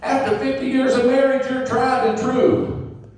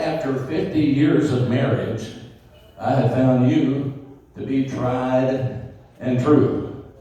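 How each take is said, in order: First: It is yelled as loud as possible. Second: It is said a little louder than normal.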